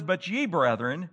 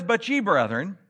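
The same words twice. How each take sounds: First: Said in the usual way. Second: But punched a little louder; stress on But. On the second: Shown as a demonstration. Preacher quoting Paul to his congregation, stressing But. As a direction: lean on the pivotal But. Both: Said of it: "that word "but," it's a pivotal word".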